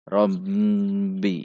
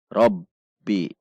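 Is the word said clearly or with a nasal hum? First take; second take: nasal hum; clear. First: It is said with a hum through the nose. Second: It is said clearly and firmly, without nasal hum. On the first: The speaker calls it wrong. "seperti ada dengungan ke hidung" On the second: The speaker calls it right. "robbi jelas, tegas"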